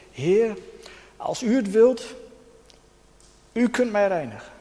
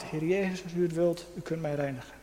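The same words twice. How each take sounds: First: Smekend roepen, iets hoger: „Heer, als u het wilt”; roepende melaatse. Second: Veel zachter, ingetogen: „Heer Jezus, als u het wilt”; stil smekend gebed. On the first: Acted. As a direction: als een melaatse die om genezing smeekt. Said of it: "En hij roept tot Jezus". (de melaatse roept smekend tot Jezus) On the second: Retold or imitated. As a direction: een innerlijke schreeuw, bijna fluisterend gebeden. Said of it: "een schreeuw van mijn hart". (de spreker bidt zacht zijn eigen hartenkreet)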